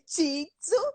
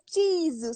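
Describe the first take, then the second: First: The word has a Brazilian-accented pronunciation. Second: The word has a native Japanese pronunciation. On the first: The speaker calls it wrong. "eu falei Titsu" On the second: The speaker calls it right. "ela fica dizendo Tizu"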